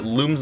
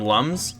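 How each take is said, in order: First: The vowel sounds like the one in 'moon'. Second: The vowel sounds like the one in 'cup'. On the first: "So I pronounced it Looms the whole time" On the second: "I always called him Lums"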